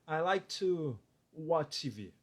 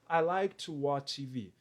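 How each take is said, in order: First: There is a pause after "to". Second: It is said without a pause.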